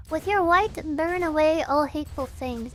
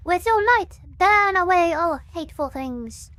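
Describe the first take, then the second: First: Said in the usual way. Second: Louder cultist proclamation; cultist preacher. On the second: Shown as a demonstration. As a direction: read it like a zealous cultist. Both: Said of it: "I gotta read this like a cultist would".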